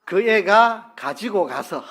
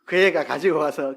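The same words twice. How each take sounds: First: Slow clear gloss. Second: Said in the usual way. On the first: Shown as a demonstration. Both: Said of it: "무슨 말입니까?".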